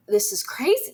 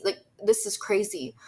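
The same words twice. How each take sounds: First: Imitating her stunned reaction to the confession; shocked disbelief. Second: Said in the usual way. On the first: Girlfriend reacting in stunned disbelief, high-pitched. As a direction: voice leaps up high on "crazy" in shock. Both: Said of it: "she also was like".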